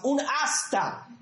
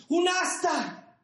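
First: "un hasta" stretched slowly, falling at the end; stress on hasta. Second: "Un hasta" slow and much higher, falling; stressed hasta, higher. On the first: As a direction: dwell on "un hasta" and let it fall. ("un hasta" lento y marcado, cayendo) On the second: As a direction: lift "Un hasta" high, then drop it slowly. ("Un hasta" lento, agudo y enfático) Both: Shown as a demonstration.

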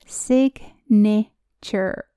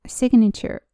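First: Signature drawn out very slowly, one syllable at a time. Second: Said in the usual way. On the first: Shown as a demonstration. Teacher showing learners how signature is built, syllable by syllable. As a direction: break signature into sig-na-ture, pausing between syllables.

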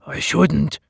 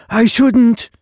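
First: I shouldn't said close to the narrator's voice, mild refusal; a hint of the simple slave hesitating; lightly voiced simpleton. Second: I shouldn't said much higher and louder, a dim-witted refusal; simpleton repeating. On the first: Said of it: "he said". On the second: Acted. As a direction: blurt it out high like a simple slave. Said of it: "he repeated".

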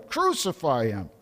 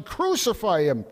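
First: Smaller repeat of the crowd cry; echoing shout, eased. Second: Higher, louder crowd cry; first crowd shout, raised; read crowd shout. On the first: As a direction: let the echo fall back. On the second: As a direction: lift it as the mob's demand. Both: A narrator's reading. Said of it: "they kept shouting".

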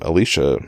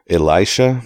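First: "Elisha" with "lee" in the middle; first pronunciation of Elisha. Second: "Elisha" like Eli plus "sha"; alternative pronunciation of Elisha. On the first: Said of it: "not sure how to pronounce that". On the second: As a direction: say "Elisha" tentatively as ih-LIE-sha. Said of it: "like Eli, with a "sha" after it". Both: Shown as a demonstration.

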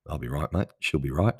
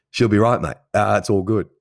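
First: Aussie dad saying. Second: Loud, higher Aussie bloke, laying it on thick; hammed-up Aussie accent. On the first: Retold or imitated. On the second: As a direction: boom it out like a cheery Australian mate. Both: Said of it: "that's what the Aussies say".

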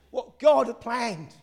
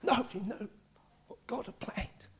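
First: Slow, full-voiced preacher's declaration; emphatic proclamation. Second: Awed whisper. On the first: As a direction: proclaim it slowly to the congregation. Proclaims line, later whispers it. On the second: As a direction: drop to a whisper as if revealing a secret. Repeats the proclamation in hush. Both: Real, not acted.

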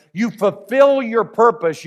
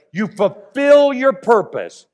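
First: Said in the usual way. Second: Fulfill stressed, louder and higher; preacher pressing fulfill home on the repeat; emphatic repeat. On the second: Shown as a demonstration. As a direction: land the word fulfill hard and slow, raised and louder. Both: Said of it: "You get that?".

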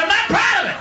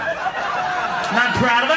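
First: High-pitched defensive protest; defensive outburst. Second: Drawn-out admission; defensive confession. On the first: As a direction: protest it much higher, over the audience. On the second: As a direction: slowly own up to it. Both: Acted. Mock-defensive confession, repeated louder.

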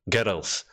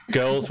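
First: Put-on "girls" split in two, like "gir-ulz"; imitated Scottish "girls" with a vowel before the L; extra syllable. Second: Said in the usual way. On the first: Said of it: "You guys add syllables to words".

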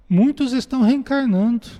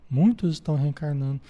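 First: "Muitos" punched higher and louder; stress on muitos. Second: Said in the usual way. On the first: Shown as a demonstration. Teacher stressing to the study group, "Muitos" punched. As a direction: lean hard into "Muitos" to drive the point home. Teacher repeats key point emphatically.

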